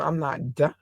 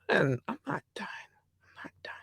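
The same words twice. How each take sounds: First: Said in the usual way. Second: Hushed, fading whisper; playful whispered repeat; whispered aside. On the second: Real, not acted. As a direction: whisper it, trailing to almost nothing. Whispered aside to herself while listing.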